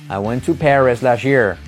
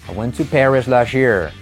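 Both takes have the same delivery.

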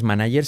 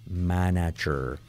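First: The g sounds like a Spanish consonant. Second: The g sounds like a voiced English j. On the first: The speaker calls it wrong. "no es manager" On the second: The speaker calls it right. "sino manager"

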